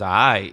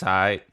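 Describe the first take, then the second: First: It is said in an impressed, approving tone. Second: It is said in a flat, unimpressed tone. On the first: The thing was good. "Like that means it was good" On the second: The thing was bad. "The first one was trash"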